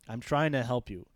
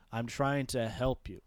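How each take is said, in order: First: Said in the usual way. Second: "trying" leaned on, slower, italic emphasis; slow down and press the word "trying"; stress on trying. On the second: Retold or imitated. Old teacher pleading with his student, stressing "trying". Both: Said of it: "Like, it's italicized".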